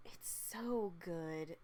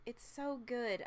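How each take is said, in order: First: Slow, soft, almost to yourself; hushed slow "It's so good"; soft and dreamy. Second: Said in the usual way. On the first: Real, not acted. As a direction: savour "so good" very slowly and softly.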